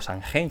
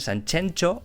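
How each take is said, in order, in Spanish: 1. La x suena como una j gutural. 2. La x suena como una ch fuerte. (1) "o Sanjenjo" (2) "dicen Sanchencho"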